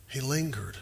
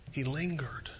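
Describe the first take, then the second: First: Said in the usual way. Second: Whispered. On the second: Shown as a demonstration. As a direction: breathe the word lingered.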